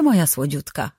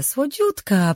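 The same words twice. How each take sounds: First: Fałszywie przymilny. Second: „słodziutka” dużo wyżej, przeciągle i opadająco; zaśpiewaj „słodziutka” wysoko i fałszywie czule; przesłodzone przymilanie. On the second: (swatka mizdrzy się do Rin: „słodziutka” wysoko, przesłodzone) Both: Acted. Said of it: "Głos miała promienny i fałszywie przymilny".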